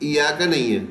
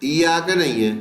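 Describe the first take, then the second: The two takes are said the same way.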